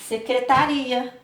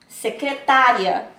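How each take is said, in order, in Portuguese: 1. A tônica está na quarta sílaba. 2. A tônica está na terceira sílaba. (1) "Olha sem o acento" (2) "Porque tem um acento"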